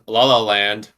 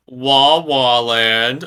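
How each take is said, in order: First: Said in the usual way. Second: Drawn-out mock wail on "Wah Wah"; mock crybaby. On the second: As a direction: tease him with a slow, stretched fake bawl. Mock crybaby wail at Luke's complaint.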